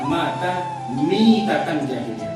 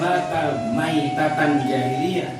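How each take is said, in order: First: The second word begins with the sound 'mi'. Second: The second word begins with the sound 'mai'. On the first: The person died in a manner like the pagan era. The speaker calls it right. "tapi yang benar adalah mata mitatan jahiliyah, bukan mai tapi mi" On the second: The person died as an unbeliever. The speaker calls it wrong. "membacanya itu bukan mata maitatan jahiliyah"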